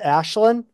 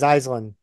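First: The name is pronounced the Irish way. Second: The name is pronounced the American way. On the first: "the actual Irish pronunciation is" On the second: "the Americanized pronunciation is"

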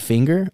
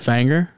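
First: The word is said in a standard accent. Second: The word is said in a country accent. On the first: "I don't say finger" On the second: "I say fanger"

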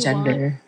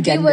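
First: It begins with a soft j sound. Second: It begins with a hard g sound. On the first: The speaker calls it right. "You say gender" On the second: The speaker calls it wrong. "you don't say gender"

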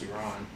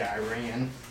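First: It is said with a non-American pronunciation. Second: It is said with an American pronunciation. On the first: The speaker calls it right. "I think it's pronounced Iran" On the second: The speaker calls it wrong. "Americans say Iran"

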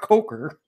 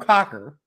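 First: The first vowel is a long o sound. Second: The first vowel is a short o sound. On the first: The speaker calls it wrong. "not Coker" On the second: The speaker calls it right. "His name is universally pronounced in all languages, [name]"

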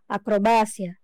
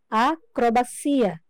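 First: The stress falls as in Spanish. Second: The stress falls as in Portuguese. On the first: "Em espanhol" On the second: "Em português, falamos a palavra acrobacia"

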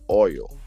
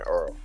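First: The word is said without an R sound. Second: The word is said with an R sound. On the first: "what we're really trying to say is oil" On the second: "the only time we put an R in it is when we say Earl"

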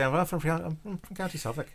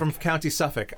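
First: It is said in a put-on Irish accent. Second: It is said in the speaker's plain everyday accent.

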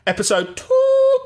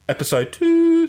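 First: It starts on a high pitch. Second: It starts on a lower pitch.

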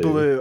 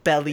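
First: The name sounds like 'Baloo', ending in oo. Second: The name sounds like 'belly', ending in ee. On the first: "Baloo, okay" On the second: "I always said, like, belly"

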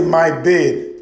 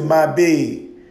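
First: It is said plainly with a short vowel. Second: It is said with a dragged Southern vowel.

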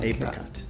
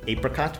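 First: The first vowel is long, as in 'ape'. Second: The first vowel is short, as in 'app'. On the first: "like the animal, the ape, and then ricot" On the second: "That's what I'm saying today"

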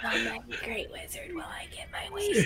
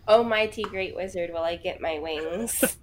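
First: It is said quietly. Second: It is said more loudly.

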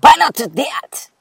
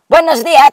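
First: It is said in an exaggerated British accent. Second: It is said in a plain Spanish accent.

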